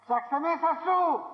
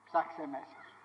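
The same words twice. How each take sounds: First: Slow, high push, falling at the end of "Ψάξε μέσα σου"; emphatic exhortation. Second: Low, soft, inward advice; quiet exhortation. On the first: Preacher telling listeners to look within, "Ψάξε μέσα σου" slow and emphatic. Same exhortation, repeated forcefully. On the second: Preacher telling listeners to look within, quietly. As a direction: say it softly and low. Same exhortation, first softly. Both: Real, not acted.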